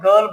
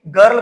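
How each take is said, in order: First: The r is silent, as in British English. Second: The r is pronounced, as in American English.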